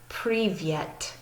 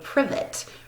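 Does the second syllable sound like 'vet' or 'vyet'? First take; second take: vyet; vet. First: The second syllable has a 'y' glide, 'vyet'. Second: The second syllable is a plain 'vet'. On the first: The speaker calls it right. "But in their pronunciation, you say privyet" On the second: The speaker calls it wrong. "if we pronounced it the way we pronounce our alphabet"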